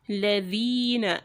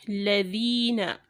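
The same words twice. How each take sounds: No difference in how they are said.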